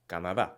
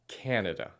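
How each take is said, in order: First: The vowels are short and crisp. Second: The vowels are drawn out and long. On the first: "in Spanish, you would say" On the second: "Notice again the elongated sound in English"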